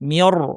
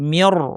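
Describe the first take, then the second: The two takes are said the same way.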